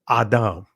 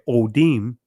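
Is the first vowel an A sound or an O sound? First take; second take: A sound; O sound. First: The first vowel is an A sound. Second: The first vowel is an O sound. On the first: This is the ancient Hebrew reading. The speaker calls it right. "the actual pronunciation of this word is Adam" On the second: This is the modern Israeli reading. The speaker calls it wrong. "In the Israeli, you see Odim"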